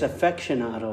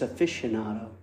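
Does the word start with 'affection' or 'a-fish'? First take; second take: affection; a-fish. First: The word begins with the sounds of 'affection'. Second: The word begins with the sounds 'a-fish'. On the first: The speaker calls it wrong. "I don't think it's affectionado" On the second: The speaker calls it right. "I think it's aficionado"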